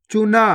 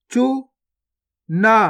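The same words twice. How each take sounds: First: Said in the usual way. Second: गुफा drawn out very slowly, each sound held long; slow stretched reading. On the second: Shown as a demonstration. Teacher showing pupils each sound, drawn out very slowly. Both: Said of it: "पहले तो आपको शब्द को गौर से सुनना है".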